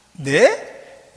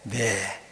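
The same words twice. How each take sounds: First: Questioning "네?" rising sharply; surprised Mary. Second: Low, soft "네" of consent; accepting Mary. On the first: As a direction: ask it back, startled. (놀라 되묻는 "네?") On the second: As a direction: yield quietly with a falling yes. (낮고 조용히 수긍하는 "네") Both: Acted. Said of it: "이 세 마디로 끝납니다".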